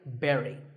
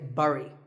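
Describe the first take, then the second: First: The word sounds just like berry. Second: The word does not sound like berry. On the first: The speaker calls it right. "sounds just like the berry in strawberry" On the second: The speaker calls it wrong. "I used to say bury"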